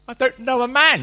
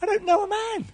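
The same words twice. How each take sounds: First: Higher, louder protest; young Mary protesting to the angel; incredulous Mary. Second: Very high put-on girl's voice; young girl's voice repeating it to Gabe; mock high Mary. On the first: Retold or imitated. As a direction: protest in disbelief. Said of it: "the first question she asked". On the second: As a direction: squeak it like a young girl. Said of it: "You know what I mean, Gabe?".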